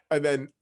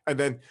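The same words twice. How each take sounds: The two takes are said the same way.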